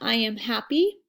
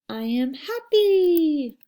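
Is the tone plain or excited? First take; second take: plain; excited. First: It is said in a plain, normal tone. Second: It is said with excitement and emotion.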